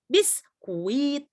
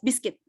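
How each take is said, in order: First: The u vowel is clearly pronounced. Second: The u is silent and not pronounced. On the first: The speaker calls it wrong. "silent letternya U, jadi bukan biskuit, bukan" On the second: The speaker calls it right. "So you will pronounce it as biscuit"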